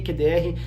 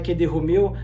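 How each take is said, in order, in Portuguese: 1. A última letra é dita pelo seu nome de letra. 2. A última letra é dita como a palavra-código. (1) "a pronúncia correta aqui no Brasil é assim mesmo" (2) "não é Q D Romeu"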